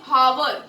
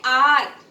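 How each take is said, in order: First: The word begins with an h sound. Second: The word begins with no h sound. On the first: The speaker calls it wrong. "हम लोग ये नहीं बोलते हावर" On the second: The speaker calls it right. "हम लोग बोलते हैं आर ... क्योंकि इसमें एच साइलेंट है"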